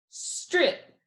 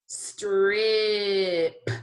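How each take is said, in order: First: Said in the usual way. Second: "Strip" stretched long, final p popped; slow sounding out. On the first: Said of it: "put these together". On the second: Shown as a demonstration. Teacher checking all the sounds, slowly stretched. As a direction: draw out every sound in "Strip". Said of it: "say it slowly again".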